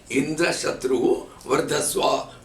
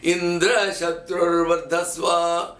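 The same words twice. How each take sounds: First: The emphasis falls on Shatru. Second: The emphasis falls on Indra. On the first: May the one who will kill Indra grow. "the emphasis on the upward action called Udhata of Shatru" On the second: May the one whom Indra will kill grow. "they put the emphasis on Indra and not on Shatru"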